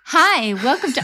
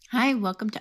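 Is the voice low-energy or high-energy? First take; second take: high-energy; low-energy. First: It is said with high, lively energy. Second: It is said with low, sleepy energy.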